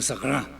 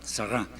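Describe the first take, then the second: First: The R sound is strong and clear. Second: The same.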